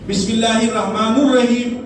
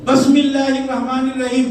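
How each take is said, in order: First: The vowel after 'Rahman' is 'u'. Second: The vowel after 'Rahman' is 'i'.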